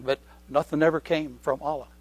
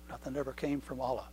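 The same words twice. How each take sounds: First: Said in the usual way. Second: Soft echo. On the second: Acted. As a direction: repeat it much softer, sinking. Repeated much softer.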